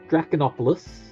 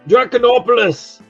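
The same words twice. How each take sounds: First: It is said in his ordinary accent. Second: It is said in a put-on British accent.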